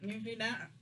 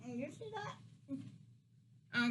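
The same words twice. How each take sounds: First: Said in the usual way. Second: Slow, breaking into laughter; laughing. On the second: Real, not acted. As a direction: laugh through the question. Points out corn, then laughs.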